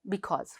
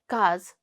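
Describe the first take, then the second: First: Both syllables of the word are fully said. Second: Only the final syllable of the word is said. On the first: It is standard, formal speech. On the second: It is casual, informal speech.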